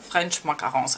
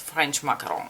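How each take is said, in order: First: It is said with an English accent. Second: It is said with a French accent.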